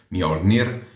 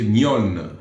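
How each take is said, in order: First: The name ends with an extra -nir syllable. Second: The name ends without an extra -nir syllable. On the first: The speaker calls it wrong. "lo so che anche a me piace dire Mjolnir" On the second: The speaker calls it right. "invece si dice Mjoln"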